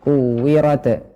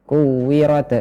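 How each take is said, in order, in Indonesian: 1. Huruf t di akhir diakhiri dengan lepasan yang memantul. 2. Huruf t di akhir diakhiri dengan lepasan yang memantul.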